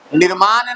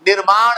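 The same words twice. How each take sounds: First: निर्माण misread as nir-maan, with a plain dental n at the end; wrong pronunciation demo. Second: निर्माण ending in a retroflex ण; correct pronunciation demo. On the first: Teacher showing pupils the error, निर्माण mispronounced with a plain n. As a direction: end निर्माण on an ordinary न sound. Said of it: "निर्माण नहीं है". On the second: Teacher correcting pupils, निर्माण pronounced with retroflex final ण. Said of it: "निर्माण है". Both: Shown as a demonstration.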